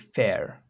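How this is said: The final R sound is pronounced. "The Americans will say fair, They pronounce the R"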